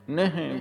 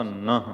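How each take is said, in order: First: ਨਹਿ said "ne-he", higher, with e vowels; wrong ਨਹਿ. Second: ਨਹ said "nah" with a plain a; straight ਨਹ. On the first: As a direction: misread it as "ne-he". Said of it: "ਨਹਿ ਵੀ ਨਹੀਂ ਪੜ੍ਹਨਾ". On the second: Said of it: "ਸਿੱਧਾ ਨਹ". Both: Shown as a demonstration.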